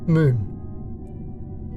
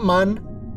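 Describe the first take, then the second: First: The vowel is a long 'oo' sound. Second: The vowel is a short 'uh' sound. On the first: The speaker calls it right. "it's moon" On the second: The speaker calls it wrong. "Not mun"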